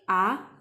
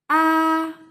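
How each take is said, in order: First: The pitch rises from lower to higher. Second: The pitch stays high and level. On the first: "it's like going up sound" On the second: "the first tone is the highest tone and it's a flat straight sound"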